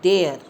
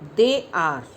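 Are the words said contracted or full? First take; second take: contracted; full. First: The words merge into one short syllable. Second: Both words are said separately and fully.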